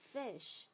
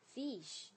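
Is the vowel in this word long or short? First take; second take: short; long. First: The vowel is short and quick. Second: The vowel is drawn out long. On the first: The speaker calls it right. "它是短的音" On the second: The speaker calls it wrong. "不要发成fish"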